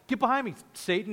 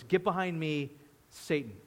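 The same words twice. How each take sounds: First: It is said in a joking, playful tone. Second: It is said in a stern, serious tone.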